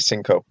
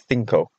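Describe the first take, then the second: First: CINCO as "SEEN-ko"; Cinco with a plain s for the c; s pronunciation. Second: CINCO as "THEEN-ko"; Castilian pronunciation. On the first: Vlogger guessing local speech, Cinco said "sinko". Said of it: "Maybe they pronounce it Cinco". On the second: Vlogger explaining the Spanish, Cinco said "thinko". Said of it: "because of the language". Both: Shown as a demonstration.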